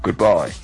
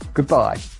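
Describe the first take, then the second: First: It is said in a deliberately deep voice. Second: It is said in a higher, normal voice.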